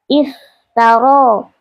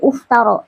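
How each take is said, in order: First: The word begins with an i vowel. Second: The word begins with a u vowel. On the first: The speaker calls it right. "hamzahnya dibaca kasroh" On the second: The speaker calls it wrong. "bukan aftaro atau uftaro"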